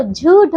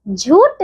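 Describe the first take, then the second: First: झूठ ending in aspirated Th; aspirated final consonant. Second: झूठ ending in unaspirated T; wrong final consonant. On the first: Teacher correcting pupils, झूठ with aspirated end. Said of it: "ठ ठठीरा वाला". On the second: Teacher showing wrong झूठ, no final breath. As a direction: say झूठ as jhoot. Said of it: "झूठ नहीं होता". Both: Shown as a demonstration.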